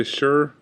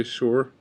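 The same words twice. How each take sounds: First: "sure" like "shur", rhyming with fur; others' pronunciation. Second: Said in the usual way. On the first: Shown as a demonstration. Vlogger showing how some say it, alternative pronunciation. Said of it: "Some people say sure". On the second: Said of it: "but I say sure".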